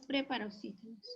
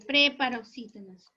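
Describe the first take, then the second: First: Said in the usual way. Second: Preparoxítonas with PRE hit hard, rest falling away; stress on PRE. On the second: Shown as a demonstration. Teacher correcting students writing it with E, PRE stressed in preparoxítonas. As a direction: punch the first syllable of preparoxítonas. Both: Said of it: "Es ahí con la E".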